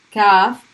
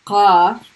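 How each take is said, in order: First: Kaf with light K. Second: Qaf from the throat; heavy Q. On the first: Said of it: "light K sound". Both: Shown as a demonstration.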